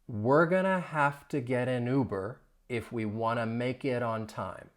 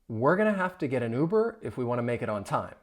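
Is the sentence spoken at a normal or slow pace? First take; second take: slow; normal. First: The sentence is spoken slowly. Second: The sentence is spoken at normal speed. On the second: "more at a normal speed"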